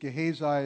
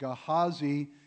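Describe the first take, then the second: First: The name is pronounced in a modern English way. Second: The name is pronounced in an ancient Hebrew way. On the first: "more more like our modern English pronunciation" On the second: "truer to the ancient Hebrew"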